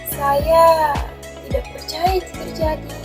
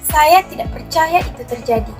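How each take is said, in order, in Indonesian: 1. Suara ini terdengar bingung dan ragu. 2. Suara ini terdengar marah, tinggi dan tegas. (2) "marah, kita menggunakan nada tinggi dan tegas"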